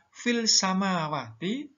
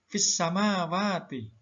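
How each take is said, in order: First: The L is pronounced clearly before the S sound. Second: The L merges into a doubled following S sound. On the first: The speaker calls it wrong. "Ini tidak boleh dibaca" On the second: The speaker calls it right. "harus dibaca fis samawati"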